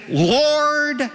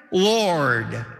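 First: Pleading cry. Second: Said in the usual way. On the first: Acted. Preacher voicing the condemned on judgment day, high pleading cry. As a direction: Lord cried out much higher, drawn out and falling.

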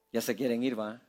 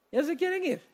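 First: Much lower and softer, half to himself; preacher teasing the restless congregation, low and soft; low teasing aside. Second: Much higher, softer, playful sing-song; preacher teasing the congregation who want to leave, high and playful; high mock teasing. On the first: Acted. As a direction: mutter it low like a knowing joke. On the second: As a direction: tease them in a high, amused voice. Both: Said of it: "tienen ganas de salir corriendo".

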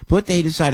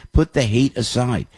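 First: "Put the hate aside" said again higher, with PUT hit hard; emphatic repeat. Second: Said in the usual way. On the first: Shown as a demonstration. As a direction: drive "Put" home the second time.

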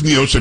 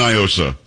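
First: Niosa said "nee-OH-sa"; Spanish-style pronunciation. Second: Niosa said "nye-OH-sa"; local pronunciation. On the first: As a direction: open Niosa with a "nee" sound. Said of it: "pronounce it like it's Spanish". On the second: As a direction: open Niosa with a "nye" sound. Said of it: "here we've always said Niosa". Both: Shown as a demonstration.

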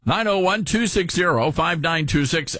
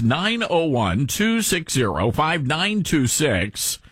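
First: Said in the usual way. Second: Slow, spaced-out phone number; deliberate, drawn-out digits; slow repeat. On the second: Real, not acted. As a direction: read the digits out slowly for listeners to note.

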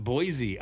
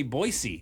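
First: Put-on Boise said as BOY-zee; non-local pronunciation. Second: Put-on Boise said as BOY-see; local pronunciation. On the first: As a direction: buzz the s of Boise into a z. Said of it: "not Boise". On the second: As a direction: use a hissed s in Boise. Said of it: "They say Boise". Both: Shown as a demonstration.

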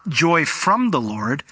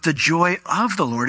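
First: "from" stressed as the rejected word. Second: "of" stressed as the correct word. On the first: Preacher correcting a common reading, stress on "from". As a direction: set "from" apart with emphasis. Contrasts from with of. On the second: Preacher giving the true wording, stress on "of". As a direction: lean on "of" to make the contrast. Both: Shown as a demonstration.

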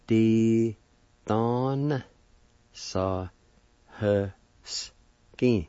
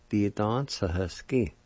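First: Di, don, sa, he, skin with a pause after each; syllable by syllable. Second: Said in the usual way. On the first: Shown as a demonstration. Teacher showing how to say pickpocket, Di don sa he skin syllable by syllable. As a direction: sound out Di don sa he skin one long syllable at a time. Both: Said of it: "like this".

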